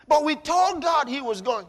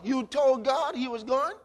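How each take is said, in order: First: Congregant's protest, said louder and higher; insistent protest. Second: Mocking disbelief rising at the end; incredulous question. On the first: Retold or imitated. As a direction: insist you did pray, raised and firm. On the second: Shown as a demonstration. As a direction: throw the excuse back in disbelief.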